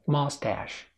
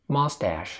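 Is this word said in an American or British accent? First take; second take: American; American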